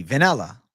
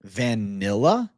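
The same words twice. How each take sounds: First: "Vanilla" as "venella", E in the first syllable. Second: "Vanilla?" stretched slowly, ve-NI-la, rising; slow questioning vanilla. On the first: Streamer repeats his word back to chat as "venella". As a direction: say "Vanilla" like ve-NEL-la. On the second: Streamer slowly testing the word chat questioned, rising. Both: Shown as a demonstration. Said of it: "What do you mean I'm pronouncing with an E?".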